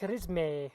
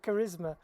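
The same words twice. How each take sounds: First: The word is pronounced in an odd, affected way. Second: The word is pronounced in the usual standard way. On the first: The speaker calls it wrong. "he says words like charisma" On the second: The speaker calls it right. "instead of charisma"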